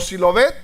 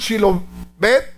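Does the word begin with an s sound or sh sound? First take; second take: s; sh. First: The word begins with an s sound. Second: The word begins with a sh sound. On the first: The speaker belongs to the group that is condemned. The speaker calls it wrong. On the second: The speaker belongs to the group that is spared. The speaker calls it right.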